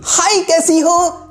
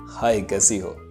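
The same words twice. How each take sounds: First: It is shouted, far too loud. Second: It is said firmly at a moderate volume.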